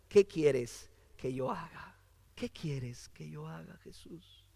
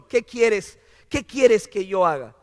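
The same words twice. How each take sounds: First: Low, very soft plea fading to a whisper; hushed submission. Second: Mildly emphatic, full-voiced question; firm surrender. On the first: Acted. Preacher voicing Saulo's question to Jesus, hushed. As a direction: ask it humbly, dropping almost to a whisper. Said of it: "¿qué dijo Saulo?". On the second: Preacher voicing Saulo offering himself, firm. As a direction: ask it out firmly, ready to obey. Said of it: "le está diciendo".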